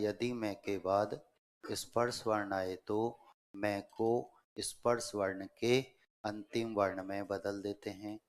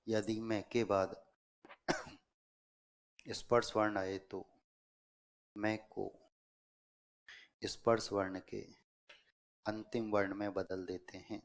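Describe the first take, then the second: First: Said in the usual way. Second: Broken into short chunks with long pauses; dictation. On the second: Real, not acted. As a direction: dictate phrase by phrase, waiting for writers. (श्रुतलेख, रुक-रुककर बोलते हुए) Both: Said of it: "दोबारा नियम बोल रहा हूँ".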